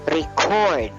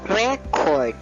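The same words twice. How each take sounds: First: The stress is on the second syllable. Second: The stress is on the first syllable. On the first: It is used as a verb. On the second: It is used as a noun.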